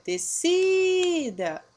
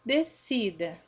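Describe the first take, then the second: First: "Descida" called out loud and high, with a long drawn-out "si"; calling the word. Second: Said in the usual way. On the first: Shown as a demonstration. Teacher calls the word to find its tonic syllable, "Descida" called with SI held long. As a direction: call "Descida" like summoning someone, stretching the stressed SI. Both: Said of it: "Vamos chamar a descida?".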